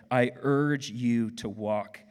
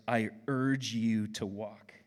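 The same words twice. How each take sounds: First: "I urge you to walk" said slowly and a bit louder; slow, emphatic. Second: I urge you to walk, each word slow and weighted; dictating the key phrase; slow, stressed. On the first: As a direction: lean on "urge" and land "walk". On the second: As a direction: spell it out slowly for note-taking. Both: Shown as a demonstration. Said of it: "if you're gonna write something down".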